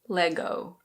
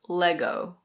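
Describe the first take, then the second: The two takes are said the same way.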